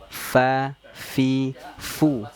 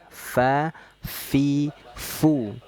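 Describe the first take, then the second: Both takes have the same delivery.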